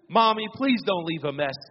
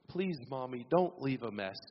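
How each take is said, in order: First: It is said with a sassy attitude. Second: It is said in a polite tone.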